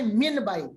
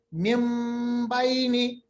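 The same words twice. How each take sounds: First: من بینی read with a plain n; written form. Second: من بینی sounded mim baini; n turned to m. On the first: Teacher shows what is written, من بینی. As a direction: say من بینی as spelt, with n. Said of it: "لکھا ہے". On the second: Teacher models the iqlab in من بینی. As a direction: say من بینی with an m, mimbaini. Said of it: "ہم میم کی آواز نکالتے ہیں". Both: Shown as a demonstration.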